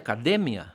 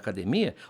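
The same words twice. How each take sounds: First: It has the Spanish stress placement. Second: It has the Portuguese stress placement.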